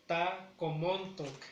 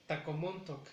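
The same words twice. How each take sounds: First: Slow "Tacomontoc", pause after Ta; slowed teaching split of "Tacomontoc"; broken into parts. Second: Said in the usual way. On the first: Shown as a demonstration. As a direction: say Ta, then comontoc. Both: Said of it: "Esa no la he pronunciado".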